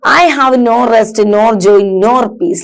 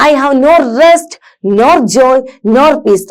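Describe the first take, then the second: First: Said in the usual way. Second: "no rest, nor joy, nor peace" in separate beats, REST lifted; stressed verse recitation. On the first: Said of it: "ഇത് നമുക്ക് പറയാം". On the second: Shown as a demonstration. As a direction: lean on "rest", "joy" and "peace", pausing after each phrase. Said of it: "ഞാൻ പറയുമ്പോ കുറച്ച് stress കൂട്ടിയിട്ടും". ("rest", "joy", "peace" ഊന്നി കവിത ചൊല്ലൽ)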